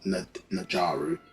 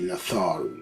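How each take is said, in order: First: The middle consonant is a j sound. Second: The middle consonant is a th sound. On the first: The speaker calls it wrong. "so it's not Najaru" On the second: The speaker calls it right. "like a T H sound"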